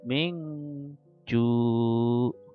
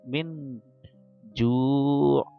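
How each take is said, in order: First: The n sound is hidden and nasal. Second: The n sound is pronounced clearly. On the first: The speaker calls it right. "Minnya kurang jelas, samar, tapi jimnya jelas" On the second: The speaker calls it wrong. "bacanya bukan min ju"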